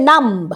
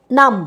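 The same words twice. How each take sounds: First: নাম্ব with the b sounded, as a wrong example; নাম্ব spoken with the b, marked as wrong; wrong pronunciation. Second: নাম with a silent b; নাম, the b left silent; correct pronunciation. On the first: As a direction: say নাম্ব with the final b. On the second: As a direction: say নাম without the b. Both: Shown as a demonstration. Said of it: "নাম্ব বলি না কিন্তু".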